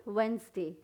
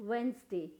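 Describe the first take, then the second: Both takes have the same delivery.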